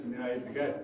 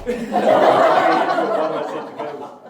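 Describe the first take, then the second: First: Said in the usual way. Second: Slow, loud, laughing through every word. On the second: Real, not acted. Repeating the punchline to friends, laughing loudly. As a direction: collapse into laughter on it.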